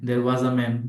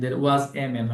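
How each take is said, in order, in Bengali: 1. আর্টিকেলটি একটি ছোট, দ্রুত 'uh' ধ্বনি। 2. আর্টিকেলটি একটি পূর্ণ 'ay' ধ্বনি। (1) "এটাকে আ বলবেন, দ্রুত বলবেন" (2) "হবে না, আ হবে"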